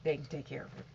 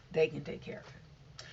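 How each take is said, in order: First: Said in the usual way. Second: Whisper. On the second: Shown as a demonstration. Repeats line, then whispers it.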